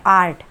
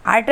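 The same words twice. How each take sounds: First: आर्ट with the long आ pulled out; correct stretched vowel. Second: आर्ट with a short clipped आ; wrong version. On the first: Teacher gives students the right आर्ट, long vowel. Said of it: "देखिए थोड़ी आवाज़ को खींचा". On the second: Teacher shows students the wrong आर्ट, short vowel. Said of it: "आर्ट नहीं है". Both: Shown as a demonstration.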